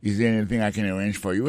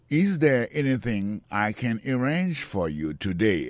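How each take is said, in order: First: Quick conversational run-through; natural fast pace. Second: Slow, clear teaching read; slow model sentence. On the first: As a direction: say it fast like a native. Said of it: "same sentence at speed". (pale vit tankou yon natif) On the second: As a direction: say each word slowly for learners. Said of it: "teacher models the sentence". (li dousman pou elèv yo) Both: Shown as a demonstration.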